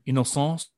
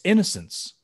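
First: The word is pronounced the French way. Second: The word is pronounced the English way.

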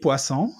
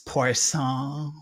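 First: The name is said with a French pronunciation. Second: The name is said with an English-style pronunciation. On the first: The speaker calls it right. "I can say bienvenue, Denis Poisson" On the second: The speaker calls it wrong. "Not going like Denis Poisson"

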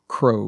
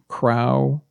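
First: The vowel sounds like 'row' a boat. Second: The vowel differs from 'row' a boat. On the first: The speaker calls it right. "this is pronounced crow" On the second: The speaker calls it wrong. "you might think this is pronounced crow"

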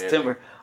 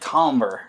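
First: The first vowel is the 'i' of 'tim'. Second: The first vowel is the 'o' of 'tom'. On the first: The speaker calls it wrong. "Actually, it's supposed to be like" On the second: The speaker calls it right. "but it's like tomber"

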